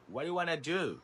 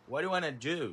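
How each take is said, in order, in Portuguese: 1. Want e to se unem em uma só palavra, wanna. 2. Want e to se unem em uma só palavra, wanna.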